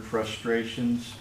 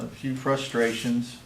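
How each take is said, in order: First: Frustrations said slowly and drawn out; stress on frustrations. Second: Said in the usual way. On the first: Shown as a demonstration. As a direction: lean hard on frustrations, dragging it. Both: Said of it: "would second that word, frustrations".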